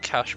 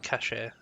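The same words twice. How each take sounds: First: The word ends without a sounded final vowel. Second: The word ends with a sounded final vowel. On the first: This is how the speaker usually says it. "I always pronounce it cache" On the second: This is how other people say it. "I've heard people pronounce it cache"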